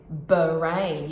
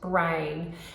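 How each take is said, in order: First: A short uh vowel separates the b and r. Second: The b and r are joined without a vowel. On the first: The speaker calls it wrong. "when a child inserts a schwa, it would sound like this" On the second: The speaker calls it right. "brr would be"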